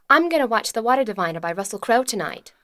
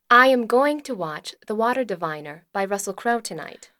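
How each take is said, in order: First: It is said at a fast pace. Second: It is said at a slow pace.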